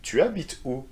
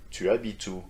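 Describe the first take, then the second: First: "Tu habites où" pitched up as a question; intonation up. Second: "tu habites où" with very flat intonation. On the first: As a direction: lift the intonation on "Tu habites où", higher voice. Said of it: "it's better with intonation up". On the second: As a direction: keep "tu habites où" level, no lift on "où". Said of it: "a very flat intonation". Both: Shown as a demonstration.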